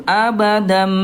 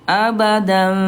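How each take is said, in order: The two takes are said the same way.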